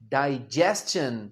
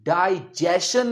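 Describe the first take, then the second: First: The middle sound is 's' followed by 'ch'. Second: The middle sound is a plain 'sh'. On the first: The speaker calls it right. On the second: The speaker calls it wrong.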